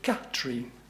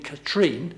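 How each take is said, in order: First: The stress is on the first syllable. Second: The stress is on the second syllable. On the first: The speaker calls it right. "it should be on the first syllable" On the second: The speaker calls it wrong. "I always put the emphasis on the second syllable"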